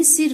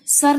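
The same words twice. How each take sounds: First: Said in the usual way. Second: सर said "sar", with A; mispronounced vowel. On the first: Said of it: "सिर होता है". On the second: Shown as a demonstration. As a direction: use A instead of I in सर. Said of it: "नहीं सिर होता है".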